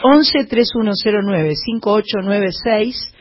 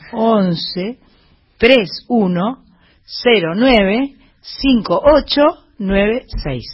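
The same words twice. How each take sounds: First: The number is said at normal, faster speed. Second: The number is said slowly.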